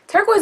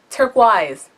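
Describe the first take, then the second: First: The last syllable sounds like 'noise'. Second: The last syllable sounds like 'wise'.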